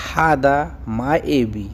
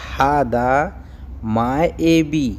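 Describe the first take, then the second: First: Said in the usual way. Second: हादा माएबी said slowly, one word at a time with a pause between; slow teaching repeat of हादा माएबी. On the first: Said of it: "teacher models Arabic phrase". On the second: Shown as a demonstration. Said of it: "teacher repeats phrase word by word".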